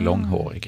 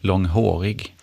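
First: The main stress falls on the first part, lång. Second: The main stress falls on the last part, hårig. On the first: The speaker calls it right. "istället för" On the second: The speaker calls it wrong. "lägger då huvudbetoningen, kan man säga, på den sista betonade stavelsen"

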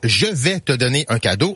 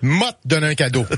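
First: The phrase is said in full standard French. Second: The opening is contracted Québécois style to "m'a".

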